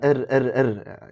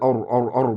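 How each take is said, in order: First: The r sound is thin and light. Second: The r sound is heavy and full. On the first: The speaker calls it wrong. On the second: The speaker calls it right.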